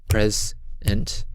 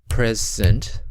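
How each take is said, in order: The two takes are said the same way.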